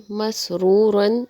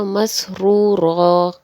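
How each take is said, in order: First: مسرورن said slowly with the nunation on the end, masroorun; full ending. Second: مسرورا said slowly, ending in a long a instead of the un; pause form. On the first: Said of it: "اگلا لفظ ہے". (مسرورن کو تنوین کے ساتھ پورا پڑھیں) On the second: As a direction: stop on مسرورا with a stretched final a. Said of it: "اس پر وقف ہوگا". (وقف میں مسرورا، آخر میں لمبا الف) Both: Shown as a demonstration.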